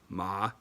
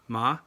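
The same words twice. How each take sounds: First: The pitch dips low, then rises. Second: The pitch rises from middle to high. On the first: "the low rising tone" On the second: "the rising tone"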